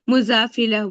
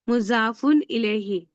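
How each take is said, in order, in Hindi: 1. शब्द छोटे रूप में बोला जाता है, आख़िरी हरकतों के बिना। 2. शब्द पूरा बोला जाता है, आख़िरी हरकतों के साथ। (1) "इलेह नहीं बोलेंगे, मुजाफिला बोल देंगे" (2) "मुजाफुन इलेही पढ़ रहे हैं ना"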